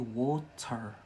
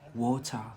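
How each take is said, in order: First: It is said in a Scottish accent. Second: It is said in an English accent. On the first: "here in Scotland we say water" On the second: "In England, they say water"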